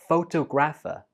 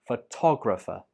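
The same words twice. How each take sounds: First: The stress is on the first syllable. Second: The stress is on the second syllable. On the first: The speaker calls it wrong. "they say this like photographer" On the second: The speaker calls it right. "The stress is on to"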